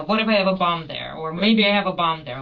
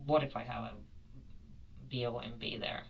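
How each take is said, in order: First: Bomb said as a whole word, louder; said the word outright. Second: B O M B spelled letter by letter, kept low. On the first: To the interviewer, she repeats what she told the gate staff: bomb said aloud, louder. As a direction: say bomb plainly and loudly, no spelling. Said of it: "No, no, I said the word". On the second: To the interviewer, she spells the word: B O M B letter by letter. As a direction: spell out B O M B quietly instead of saying the word. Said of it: "did you spell it or did you say bomb". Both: Shown as a demonstration.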